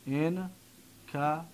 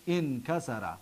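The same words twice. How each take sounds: First: انکسر very slowly in separate syllables, in-ka-sa-ra. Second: Said in the usual way. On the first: Shown as a demonstration. Teacher breaking down the past verb, syllable by syllable. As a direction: softly sound out انکسر with long gaps between syllables.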